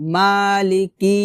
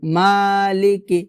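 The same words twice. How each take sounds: Both takes have the same delivery.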